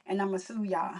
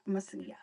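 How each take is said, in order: First: Said in the usual way. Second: Whispered and much softer. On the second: Shown as a demonstration. Streamer repeating her joke threat to chat, whispered. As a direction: breathe the threat as a sly aside.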